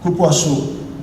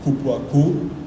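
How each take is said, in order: First: The second c sounds like an s. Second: The second c sounds like a k. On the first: The speaker calls it right. "should be a little uh, tail under the second C" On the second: The speaker calls it wrong. "that's a bad word in Portuguese"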